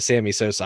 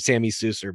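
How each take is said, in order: First: The surname is said with clear o vowels, Sosa. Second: The surname is said with reduced vowels, Susser. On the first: The speaker calls it right. "actually called Sammy Sosa Sammy Sosa" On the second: The speaker calls it wrong. "I call him Sammy Susser because of that stupid sound clip"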